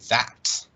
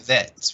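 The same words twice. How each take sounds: First: The vowel is an open 'ah' sound. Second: The vowel is a closer 'eh' sound. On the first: The speaker calls it right. "this is that ah sound" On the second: The speaker calls it wrong. "we don't say that"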